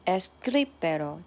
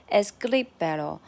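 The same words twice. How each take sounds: First: Escríbelo with gri stressed, es-CRÍ-be-lo. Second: Escríbelo, gri louder than the rest; stress on gri. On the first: Teacher repeating escríbelo for the class, stressing gri. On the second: Teacher giving escríbelo again to the class, stressing gri. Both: Shown as a demonstration. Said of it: "the stress is in gri".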